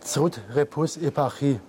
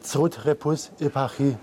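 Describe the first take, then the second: First: "Zrut repus epachi" repeated as reversed German; backwards speech. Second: "Zrut repus epachi" spoken as reversed German; backwards speech. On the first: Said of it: "Nochmal, bitte". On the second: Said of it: "sag mal einen Satz". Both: Shown as a demonstration.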